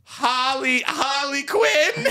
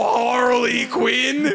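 First: Very high, stretched cartoon tri-state voice; Harley Quinn. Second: High, drawn-out Southern-sounding cartoon voice. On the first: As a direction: squeak it out slowly, feeling for the character. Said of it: "let me find it". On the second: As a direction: botch a tri-state accent into Southern, stretched out. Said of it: "why do you wanna be Southern today?". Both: Shown as a demonstration.

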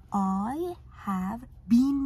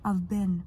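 First: "been" said slowly with a long ee; non-American BEEN. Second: "been" said short, like "ben"; contracted "I've been" with American short-vowel "been". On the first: Teacher showing students how not to say it, long-ee "been". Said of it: "نیست بچه. been تلفظ". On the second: Teacher modelling our American pronunciation, "been" like "ben". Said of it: "تلفظمون آمریکایی". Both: Shown as a demonstration.

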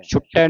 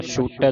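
First: ਛੁਟੈ with short u and doubled t; wrong reading. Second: ਛੂਟੈ with a long "oo"; long-vowel reading. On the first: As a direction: clip the vowel, "chhuttai", in ਛੁਟੈ. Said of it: "ਨਹੀਂ ਪੜ੍ਹਨਾ". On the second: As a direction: hold the first vowel of ਛੂਟੈ. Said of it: "ਦਲਿੰਕੜਾਂ ਲੱਗੀਆਂ". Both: Shown as a demonstration.

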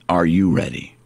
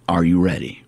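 The two takes are said the same way.

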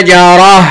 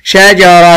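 First: شجرة as shajarah, louder, breathed h; sukun ending. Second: شجرة as shajaratun; voweled ending. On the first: Teacher pausing on the word, شجرة as shajarah. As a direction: end شجرة on h, no t. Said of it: "هقف عليها بالسكون". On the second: Teacher quizzing a pupil, شجرة as shajaratun. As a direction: sound "-tun" at the end of شجرة. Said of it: "هسكنها". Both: Shown as a demonstration.

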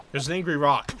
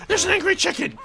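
First: Said in the usual way. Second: Very high squealed alarm; panicked shriek. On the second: Real, not acted. Gamer spotting an angry chicken after him, panicked shriek. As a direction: shriek it in sudden comic panic.

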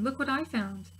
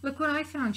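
First: Calling out with glee, higher; proud little shout of discovery; excited shout. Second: Higher, proud call of a find; triumphant shout. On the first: A narrator's reading. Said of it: "return at the end of the day shouting". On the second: Acted. Frog showing her friends, triumphant shout. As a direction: show off the big find. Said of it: "she shouted triumphantly".

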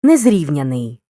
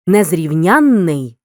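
First: Незрівняний said with a single short н, stress on the root. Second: Незрівнянний said slowly with a long нн and stress on ян; stress on suffix. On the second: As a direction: draw out the нн in незрівнянний. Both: Shown as a demonstration. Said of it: "Порівняй".

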